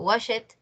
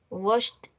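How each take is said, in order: First: The ending is an extra syllable, 'id'. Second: The ending is a plain t sound. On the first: The speaker calls it wrong. "No van a decir" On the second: The speaker calls it right. "Con T, terminación en T"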